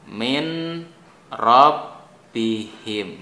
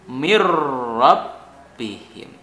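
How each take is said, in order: First: The n sound is clearly pronounced. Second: The n sound merges into the r. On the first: "Ini bacaan normalnya begini" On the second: "hilang atau kalah dengan ro"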